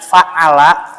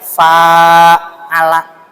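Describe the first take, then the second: First: The first vowel is kept short. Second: The first vowel is held long. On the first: One person does the action. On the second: Two people do the action to each other. "ada panjang"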